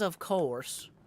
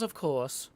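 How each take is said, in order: First: It is said in an American accent. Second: It is said in a British accent.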